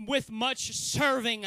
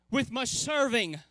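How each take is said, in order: First: Slow, each word weighed; slow emphasis. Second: Said in the usual way. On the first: Shown as a demonstration. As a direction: draw the phrase out deliberately.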